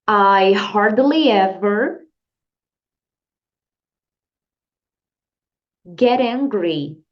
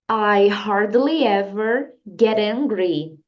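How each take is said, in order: First: Each word is said separately with pauses. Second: The whole sentence flows without pauses. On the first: "vamos repetir separadamente" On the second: "Agora vamos repetir a frase inteira"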